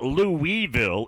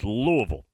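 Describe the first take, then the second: First: It is said the way outsiders say it. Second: It is said the way locals say it. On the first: The speaker calls it wrong. "It's not Louisville" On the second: The speaker calls it right. "You got to go with the locals, Louisville"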